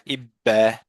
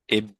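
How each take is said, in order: First: A full vowel is added after the final consonant. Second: The final consonant ends with only a short echo. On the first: The speaker calls it wrong. "they would make an a sound, like a fatha sound" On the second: The speaker calls it right. "No vowel sound is added, but just an echo sound"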